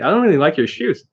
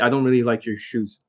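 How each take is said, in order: First: The voice is high and lively. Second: The voice is flat and monotone. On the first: The remark comes across as a playful tease. The speaker calls it right. "It has to be up here" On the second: The remark comes across as a real insult. The speaker calls it wrong. "They're very monotone like that"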